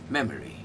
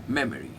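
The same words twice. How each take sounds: First: The stress is on the first syllable. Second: The stress is on the first syllable.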